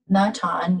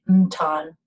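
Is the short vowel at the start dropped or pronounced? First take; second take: pronounced; dropped. First: A short vowel is pronounced before the n. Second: The short vowel before the n is dropped.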